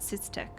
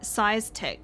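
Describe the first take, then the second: First: The first syllable sounds like 'sis' in 'system'. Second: The first syllable sounds like the word 'size'. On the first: This is how the speaker would say the name. "I'd pronounce it Systech. ... like system?" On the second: This is how the name was said in the game. "was it size tech? ... It seemed a weird way to pronounce it"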